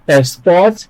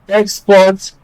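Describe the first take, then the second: First: The stress is on the second syllable. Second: The stress is on the first syllable. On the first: It is used as a verb. "stress the second syllable when it is a verb" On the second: It is used as a noun. "stress the first syllable when it is a noun"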